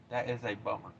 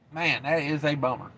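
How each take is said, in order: First: Echoed under his breath, much softer; quiet mutter. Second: Said in the usual way. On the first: Real, not acted. Trucker muttering to himself about the closed road, very soft. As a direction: repeat it to yourself, almost inaudible.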